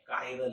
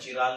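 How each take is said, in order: First: The word begins with a k sound. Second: The word begins with a ch sound. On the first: The speaker calls it right. "काहिरल है" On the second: The speaker calls it wrong. "इसका सही उच्चारण चिराल नहीं है"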